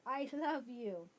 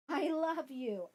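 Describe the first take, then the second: First: Softer repeat. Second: Tender, slow. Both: Real, not acted.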